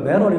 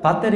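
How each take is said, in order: First: The t is flapped into a soft d-like sound. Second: The t is pronounced as a clear t. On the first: The speaker calls it wrong. "완전히 미국식 발음이거든요" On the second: The speaker calls it right. "배터리 그러면 될 걸"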